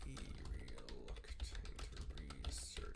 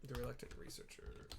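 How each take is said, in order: First: Drawn-out low whisper of the title; hushed, eerie whisper, very slow; slow spooky whisper. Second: Said in the usual way. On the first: Shown as a demonstration. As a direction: breathe the title out slowly like a ghost story. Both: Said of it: "repeated as a spooky whisper".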